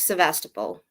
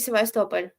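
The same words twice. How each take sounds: First: It is said with an English pronunciation. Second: It is said with a non-English pronunciation.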